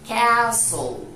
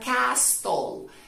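First: No t sound is heard in the middle. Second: A t sound is heard in the middle. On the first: The speaker calls it right. "la T del medio y la E del final son mudas" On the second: The speaker calls it wrong. "no se pronuncia castle, ya que la T del medio y la E del final son mudas"

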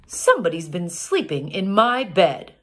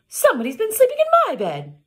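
First: It is said in a deep big-bear voice. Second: It is said in a medium-bear voice.

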